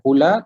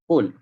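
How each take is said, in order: First: The word ends with an 'a' vowel. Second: The word ends on 'l' with no vowel. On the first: The speaker calls it wrong. "kita tak baca qula" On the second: The speaker calls it right. "tapi dibaca dengan qul"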